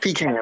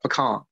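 First: It is said with a Georgia twang. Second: It is said the way other places say it.

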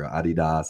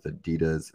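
First: It is said the European way. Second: It is said the American way.

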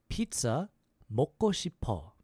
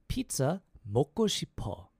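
No difference in how they are said.

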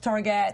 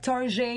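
First: The word is said with a plain English pronunciation. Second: The word is said with a French-style pronunciation.

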